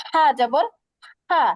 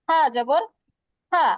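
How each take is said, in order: The two takes are said the same way.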